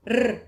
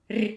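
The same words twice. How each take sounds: First: "r" as a long, strong trill; hard r. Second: "r" as a short palatalised trill; soft r. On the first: Teacher contrasts the two marks, hard r. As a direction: roll "r" firmly, unsoftened. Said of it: "is hard". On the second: Teacher contrasts the two marks, soft r. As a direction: roll "r" lightly toward ee. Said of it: "is soft". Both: Shown as a demonstration.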